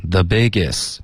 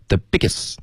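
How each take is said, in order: First: "The biggest" eased out, falling at the end; relaxed even flow. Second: "the biggest" abrupt, with a rising end; unnatural short stress. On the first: Shown as a demonstration. Teacher models for student, relaxed even "biggest". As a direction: keep the air steady through "The biggest". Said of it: "尽量让气流一致". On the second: Retold or imitated. Teacher shows what to avoid, abrupt "biggest". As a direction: cut "biggest" short and tense. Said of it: "不要the biggest".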